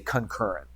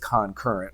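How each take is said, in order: First: The word is slurred together, with sounds reduced. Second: The word is said carefully, every sound clear. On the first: This is how people usually say it. "We usually say concurrent" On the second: This is the technically correct form. "technically it is concurrent"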